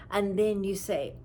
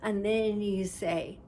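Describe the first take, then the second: No difference in how they are said.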